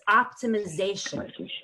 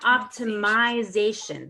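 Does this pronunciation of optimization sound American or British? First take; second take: American; British. First: The word is said the American way, without 'myzation'. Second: The word is said the British way, with 'myzation'. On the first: The speaker calls it right. "Americans would never say myzation, but it's optimization" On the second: The speaker calls it wrong. "So it's not optimization. That's kind of British"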